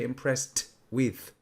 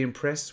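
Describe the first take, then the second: First: The t is released, with a stop before with. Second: The t softens and flows straight into with. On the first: The speaker calls it wrong. "we don't really say impressed with" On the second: The speaker calls it right. "that t really becomes a soft s"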